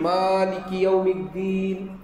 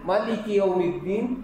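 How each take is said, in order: First: The first vowel of maliki is drawn out long. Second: The first vowel of maliki is kept short. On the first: "যেমন আমরা সূরা ফাতিহায় পড়ি" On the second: "মালিকি টান না দিয়ে যদি পড়ে"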